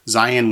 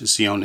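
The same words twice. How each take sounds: First: It is said with an English pronunciation. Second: It is said with a Hebrew pronunciation. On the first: "we tend to say in English" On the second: "Zion in Hebrew"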